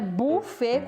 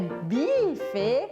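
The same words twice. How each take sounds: First: The first vowel is a plain oo sound. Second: The first vowel is an ee sound. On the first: "também não é buffet com U igual em português" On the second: "não é buffet com I"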